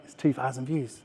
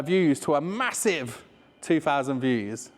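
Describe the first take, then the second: First: Said in the usual way. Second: Mock grand. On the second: Shown as a demonstration. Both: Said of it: "Which is crap".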